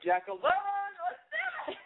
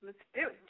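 First: High, slow, stretched out rally cry; big slow high shout to launch the story; excited drawn-out shout. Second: Said in the usual way. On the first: Real, not acted. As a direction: whoop her name like a game show host kicking off. Host hypes up the caller.

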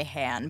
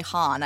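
First: "Han" said with a short a; own pronunciation. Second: "Han" said as HAHN; the other's pronunciation. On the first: Co-host showing her own version, "Han" with a short a. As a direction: say "Han" like the start of hand. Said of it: "I say Han". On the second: Co-host showing the host's version, "Han" as HAHN. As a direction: say "Han" with an open ah. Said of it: "what am I saying that you're not saying". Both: Shown as a demonstration.

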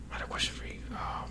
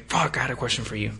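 First: Whispered aside. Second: Said in the usual way. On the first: Real, not acted. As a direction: whisper it under your breath. Whispered aside after plain take.

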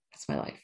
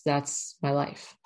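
First: Breathy laughing whisper of the same words; half-laughing whispered confession; whispered aside. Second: Said in the usual way. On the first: Real, not acted. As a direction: drop to a wry whisper. Repeats own line as whisper aside.

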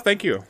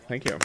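First: Mock grand thanks. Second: Said in the usual way. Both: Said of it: "can I get some applause?".

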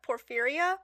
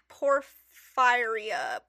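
First: Porphyria with "phy" said like "fear", quicker, rising; second attempt. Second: Porphyria with "phy" said like "fire", very slow; drawn-out attempt. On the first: Co-host retrying the disease name, questioning porphyria. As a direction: try porphyria with fear in the middle. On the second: Co-host sounding out an unfamiliar disease name, drawn-out porphyria. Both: Real, not acted. Trying two readings of a word.

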